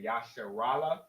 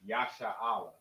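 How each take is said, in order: First: The word is said with an R sound. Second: The word is said without an R sound. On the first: "Most people pronounce the R and they say Yasharallah" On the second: "how we say Israel in our native tongue is Yasha'Allah"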